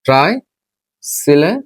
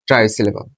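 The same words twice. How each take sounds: First: ট্রাইসিলেবল drawn out slowly, long gap after try; syllable by syllable. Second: Said in the usual way. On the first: Shown as a demonstration. Teacher dictating a new term as it is written, syllable by syllable. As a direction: break ট্রাইসিলেবল into slow, rising pieces.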